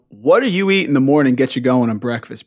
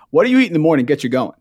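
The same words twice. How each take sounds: First: Said in the usual way. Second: Rattled off fast, falling at the end; fast recap of a stock question; quick repeat. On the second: Real, not acted. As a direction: rush through the familiar question.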